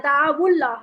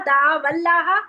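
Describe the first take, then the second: First: The words are joined with a u vowel. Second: The words are joined with an a vowel.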